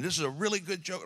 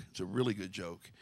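First: High, hammed-up boast of a good joke; mock proud preacher. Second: Said in the usual way. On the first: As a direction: pastor teasing a friend who bragged about his joke, high mock boast. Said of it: "You were up here going". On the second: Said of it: "this was a joke, but it's a good joke".

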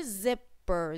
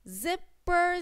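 First: Zipper said low and softer, falling; word said falling. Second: Zipper said high, rising; word said rising. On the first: Teacher repeats zipper for children, low falling. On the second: Teacher models Zipper for children, high. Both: Shown as a demonstration. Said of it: "z, z".

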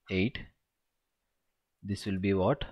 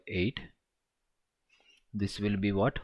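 No difference in how they are said.

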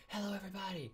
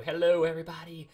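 First: High, soft hello; small high greeting. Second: Showy greeting. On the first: Streamer echoing his hello to everybody, small high voice. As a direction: repeat it tiny and pitched up. Repeats the greeting softer, higher. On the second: Streamer answering people saying hello, showy greeting. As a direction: greet the whole chat loudly. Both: Real, not acted.

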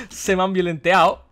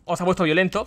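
First: Slowly savouring the made-up word "violenteado"; "violenteado" stretched out slow and amused; jokey made-up word. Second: Said in the usual way. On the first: Shown as a demonstration. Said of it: "por decirlo de alguna manera". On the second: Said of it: "no nos vamos a poner ahora a inventar palabras".

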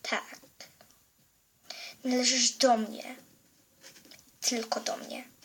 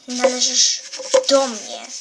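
First: Menacing whisper. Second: Possessive claim. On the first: Villain claims the girl softly. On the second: Villain claims the girl. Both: Acted.

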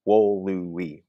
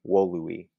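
First: "wolui" drawn out in three separate syllables, louder. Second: Said in the usual way. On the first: Shown as a demonstration. Teacher saying the word out loud to count syllables, syllable by syllable. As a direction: say "wolui" slowly and firmly, each syllable counted. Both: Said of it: "if we just say this word out loud".

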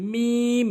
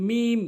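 First: মিম long and higher; correct pronunciation. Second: মিম short and plain; wrong pronunciation. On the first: Teacher modelling for learners, correct long মিম. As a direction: hold মিম on a level tone, lips closing. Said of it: "সঠিক উচ্চারণ হচ্ছে". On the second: Teacher showing learners the mistake, short wrong মিম. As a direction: say মিম quickly, unstretched. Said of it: "ভুল উচ্চারণ". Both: Shown as a demonstration.

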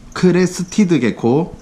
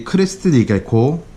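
First: 크레스티드 개코 said slowly and higher, stressing 크레스티드; slow, high emphasis. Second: Said in the usual way. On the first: Shown as a demonstration. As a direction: slowly spell out 크레스티드 개코 on a raised pitch.

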